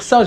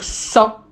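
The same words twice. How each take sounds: First: Said in the usual way. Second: "ça" with a long, doubled s sound; shadda intensification. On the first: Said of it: "Au lieu de dire ça". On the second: Shown as a demonstration. Teacher showing students the shadda, pressed, lengthened s in "ça". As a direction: hold the opening s of "ça" before the vowel. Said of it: "J'appuie sur la lettre".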